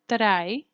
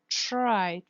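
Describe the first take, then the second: First: The R is a smooth, voiced approximant. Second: The R is a devoiced, hissing fricative. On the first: The speaker calls it wrong. "See that I do not say try" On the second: The speaker calls it right. "but try, tr, tr, fricative"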